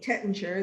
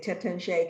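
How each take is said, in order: First: The name is said with an American pronunciation. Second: The name is said with a French pronunciation. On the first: "the way I like to, to say it the way Americans say it" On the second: "I think the French would say Tettinger"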